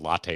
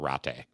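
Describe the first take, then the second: First: It begins with a plain English L sound. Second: It begins with an R-like sound, Japanese style.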